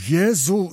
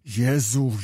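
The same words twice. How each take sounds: First: A louder, higher Jezu cried out; crying out. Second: Said in the usual way. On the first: Acted. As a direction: burst out with Jezu in anguish. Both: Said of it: "zakrzyknął Kmicic".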